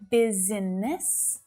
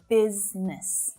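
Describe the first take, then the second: First: The word is said with three syllables. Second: The word is said with two syllables. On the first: The speaker calls it wrong. "It's not business" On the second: The speaker calls it right. "but business"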